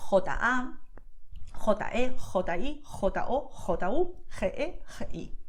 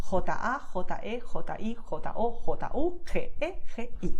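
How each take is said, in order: First: J and G with strong throaty "kh" friction; exaggerated Castilian jota. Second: J and G as a soft, lightly breathed "h"-like Spanish sound; softer jota. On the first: Teacher showing the powerful Castilian option, exaggerated jota. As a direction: scrape J and G hard in the throat. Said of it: "would make a little more exaggerated". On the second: Teacher showing the gentler option, soft jota. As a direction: keep the throat friction light on J and G. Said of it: "make it softer, like I just did". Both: Shown as a demonstration.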